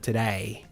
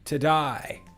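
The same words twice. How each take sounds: First: It is said in a more standard accent. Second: It is said in a broad Australian accent. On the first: "instead of today" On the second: "It's a bit more today"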